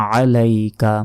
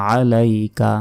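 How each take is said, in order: Both takes have the same delivery.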